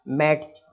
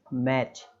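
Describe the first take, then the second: First: मैच with a t before ch, "mat-ch"; sounded t. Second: मैच ending in a plain "ch"; silent t. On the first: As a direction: spell out the t in मैच as a mistake. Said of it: "इस तरीके से, मतलब". (मैच में ट की आवाज़) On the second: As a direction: model मैच with no t sound. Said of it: "हम इसको पढ़ेंगे केवल". (सही मैच, ट silent) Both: Shown as a demonstration.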